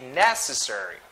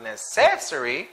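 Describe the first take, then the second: First: The stress is on the first syllable. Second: The stress is not on the first syllable. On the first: The speaker calls it right. "it should be necessary. First syllable" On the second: The speaker calls it wrong. "it's not necessary"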